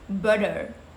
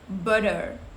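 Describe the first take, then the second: No difference in how they are said.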